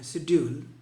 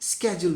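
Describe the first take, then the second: First: The word begins with an 'sh' sound. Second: The word begins with an 'sk' sound. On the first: "generally हम इसका उच्चारण शेड्यूल करते हैं" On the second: "इसका American pronunciation स्केड्यूल भी होता है"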